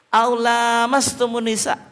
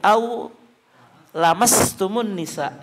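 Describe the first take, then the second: First: The vowel after the l is held long. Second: The vowel after the l is kept short. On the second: "Ada juga bacaan yang pendek"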